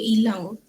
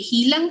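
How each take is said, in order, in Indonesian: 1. Kata ini langsung diawali vokal. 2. Kata ini diawali bunyi h yang jelas.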